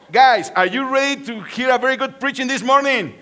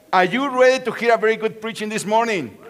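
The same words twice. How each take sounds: First: Rally the room, louder; louder call to the crowd. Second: Said in the usual way. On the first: Shown as a demonstration. Pastor repeats the question louder for a shouted reply. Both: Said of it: "Okay, again, again".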